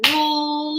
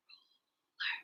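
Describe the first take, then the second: First: "Ruler" voiced in two beats, higher held first syllable; split into syllables. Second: "Ruler" whispered very softly in two parts; whispered syllables. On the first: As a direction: say "Ruler" aloud, part by part. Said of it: "Break words into parts with me". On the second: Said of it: "Whisper with me". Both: Shown as a demonstration.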